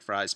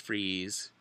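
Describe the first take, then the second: First: The name is said with an 'eye' vowel. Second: The name is said with an 'ee' vowel. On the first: The speaker calls it wrong. "it looks like Fries" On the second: The speaker calls it right. "but it's Freeze"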